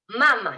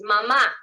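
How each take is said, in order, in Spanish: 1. El acento está en la primera sílaba. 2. El acento está en la última sílaba.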